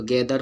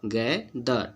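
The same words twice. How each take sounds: First: गैदर with the final र sounded; गैदर as one quick ordinary word; wrong everyday pronunciation. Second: गैदर as slow गै द, no final र; drawn-out गै-द ending on a vowel; correct silent-r pronunciation. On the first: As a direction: pronounce the r at the end of गैदर. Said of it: "पढ़ते हैं जो कि गलत है". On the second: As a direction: split गै and द, drop the r. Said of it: "कोई word में silent होता है". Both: Shown as a demonstration.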